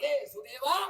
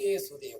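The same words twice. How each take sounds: First: There is a short gap between the words. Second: The two words run together without a gap. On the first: Someone is calling out to Sudeva. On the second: It sounds like the name Yesudeva.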